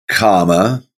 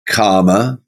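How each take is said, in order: Both takes have the same delivery.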